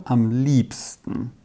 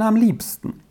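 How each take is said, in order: First: Slow, low. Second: High. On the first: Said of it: "äußerte sie lebhaft". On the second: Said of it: "entgegnete der Major". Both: A narrator's reading.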